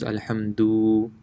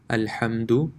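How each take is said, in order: First: The vowel after the d is stretched long. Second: The vowel after the d is short. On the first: The speaker calls it wrong. "this would actually be stretched" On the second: The speaker calls it right. "The dal is not stretched at all, it's a quick touch of the letter"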